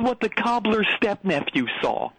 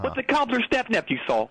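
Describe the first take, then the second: First: The title is said slowly. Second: The title is said fast.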